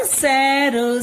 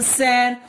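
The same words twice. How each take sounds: First: सैर stretched slowly as सै-र; syllable-by-syllable. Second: Said in the usual way. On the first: Shown as a demonstration. Teacher giving an example word, syllable by syllable. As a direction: sound out सैर in two long parts. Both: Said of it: "बोलते हैं ना".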